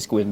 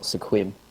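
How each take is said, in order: First: The name is said as one syllable. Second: The name is said as two syllables. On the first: The speaker calls it right. "it was actually" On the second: The speaker calls it wrong. "and not"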